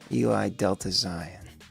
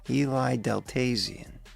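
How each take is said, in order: First: The end is said as 'Delta', then 'Zion'. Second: The end is run together as one word, 'Deltazion'. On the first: The speaker calls it right. "Eli Delta Zion, as in Mount Zion" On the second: The speaker calls it wrong. "I don't know if that's how you pronounce it"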